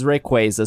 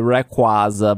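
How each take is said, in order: First: The name is said the official way. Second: The name is said the commonly used way. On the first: This is how the company says the name. The speaker calls it right. "but it is Rayquaza" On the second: This is how most people say the name. The speaker calls it wrong. "People say Rayquaza wrong. They say Rayquaza"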